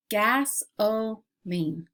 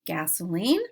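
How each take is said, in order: First: "Gasoline" slowly split as gas, o, line; syllable by syllable. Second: Said in the usual way. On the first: Shown as a demonstration. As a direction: leave a clear gap after each part of "Gasoline". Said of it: "I will give you each word part". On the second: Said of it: "we'll blend the word together".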